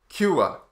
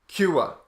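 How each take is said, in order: Both takes have the same delivery.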